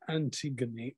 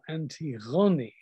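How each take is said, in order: First: The name has an English pronunciation. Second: The name has a modern Greek pronunciation.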